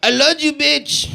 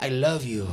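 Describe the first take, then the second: First: Unromantic Spanish-speaker accent. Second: Low, soft, seductive Spanish accent; hushed mock-romantic Spanish lover, pitched low; suave Spanish lover. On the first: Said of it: "It is like". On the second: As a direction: murmur it like a Spanish heartthrob. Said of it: "And it's not like". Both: Shown as a demonstration.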